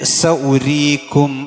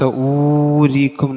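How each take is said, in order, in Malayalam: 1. രണ്ടാമത്തെ അക്ഷരത്തിലെ സ്വരം ഹ്രസ്വമാണ്. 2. രണ്ടാമത്തെ അക്ഷരത്തിലെ സ്വരം നീണ്ടതാണ്. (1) "അവിടെ വാവൻ ഉച്ചരിക്കാൻ പാടില്ല" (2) "സഊരീക്കും എന്നല്ല"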